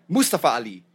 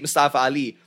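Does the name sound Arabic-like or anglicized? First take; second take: Arabic-like; anglicized. First: The name is said in an Arabic-like way. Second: The name is said in an anglicized way. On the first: "I think it's more of a native pronunciation" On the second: "we say it Mustafa Ali"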